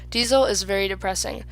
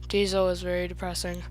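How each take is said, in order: First: It is loud, clear and excited. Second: It is quiet, flat and mumbled. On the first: The speaker calls it right. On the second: The speaker calls it wrong.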